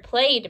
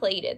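First: The ending is a plain d sound. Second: The ending adds an extra syllable. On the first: The speaker calls it right. "you're only saying the d sound at the end" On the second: The speaker calls it wrong. "but not plated"

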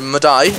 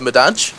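First: The consonant near the end sounds like Y. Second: The consonant near the end sounds like J. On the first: The speaker calls it right. "them Italians just like to call the J's the I's" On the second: The speaker calls it wrong. "as opposed to"

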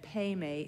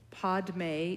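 First: The word is said without a d sound, peme. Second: The word is said with a d sound, padme. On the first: "Peme is the Tibetan pronunciation" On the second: "Padme is the Sanskrit pronunciation"

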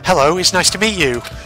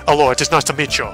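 First: It is said in a generic female voice. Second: It is said in a Tuco impression.

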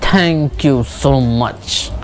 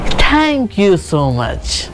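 First: It sounds harsh and irritated. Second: It sounds cheerful and bright. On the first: The speaker is annoyed. "तो एक angry वाला tone आया" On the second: The speaker is glad. "देखा एक happy tone आया"

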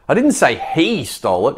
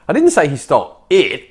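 First: The stress is on "he". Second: The stress is on "it".

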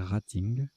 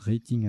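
First: The word is pronounced with a French pronunciation. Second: The word is pronounced with an English pronunciation. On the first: "apparemment, il faut prononcer rating" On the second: "je prononce rating à l'anglaise"

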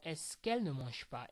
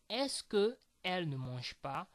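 First: The vowel of que is dropped before elle. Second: The vowel of que is kept before elle. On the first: The speaker calls it right. "You will say" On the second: The speaker calls it wrong. "Instead of saying"

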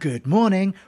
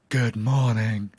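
First: It is said in a plain, normal voice. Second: It is said in a breathy, enticing voice.

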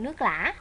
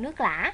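First: It is said with the Southern tone on lã. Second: The same.

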